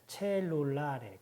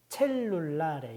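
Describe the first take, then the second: First: 첼룰라레 slowly with a single short L. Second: 첼룰라레 with a long held double L. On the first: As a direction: say 첼룰라레 as "che-lu-la-re", the L not held. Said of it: "하나밖에 없었다면 첼룰라레". (첼룰라레를 L 하나로 느리게) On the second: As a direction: say 첼룰라레 as "chel-lu-la-re", closing firmly on the L. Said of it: "두 개가 있으면 첼룰라레". (첼룰라레의 첫 L을 겹쳐서 길게) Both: Shown as a demonstration.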